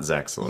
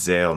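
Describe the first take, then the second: First: The name is said with a 'ks' sound. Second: The name is said without a 'ks' sound. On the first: The speaker calls it wrong. "not Zexel" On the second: The speaker calls it right. "It's Zale"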